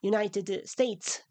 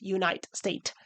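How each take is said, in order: First: Each word ends with an extra vowel sound. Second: Each word's final consonant is dropped. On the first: "by adding a vowel at the end of each word rather than elide it" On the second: "as in the script"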